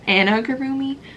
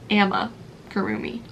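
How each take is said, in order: First: The second syllable is said with an n sound. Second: The second syllable is said with an m sound. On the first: The speaker calls it wrong. "I feel like I say it wrong every time" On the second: The speaker calls it right. "but it's amigurumi, I think"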